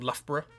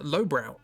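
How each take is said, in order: First: The first syllable sounds like 'luff'. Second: The first syllable sounds like 'low'. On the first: "they're pronounced differently. Luff and Borough" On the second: "if you take other pronunciations for those, you can instead uh, pronounce it"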